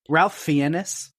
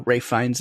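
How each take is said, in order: First: The first name sounds like Ralph, with an L. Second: The first name sounds like Rafe, without an L. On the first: The speaker calls it wrong. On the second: The speaker calls it right.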